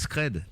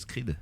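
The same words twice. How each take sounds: First: The name is said with a French pronunciation. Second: The name is said with an American pronunciation. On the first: This is the name's real form. The speaker calls it right. "mon producteur s'appelle Scred" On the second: This is how other people wrongly say it. The speaker calls it wrong. "tout le monde veut l'appeler Scred"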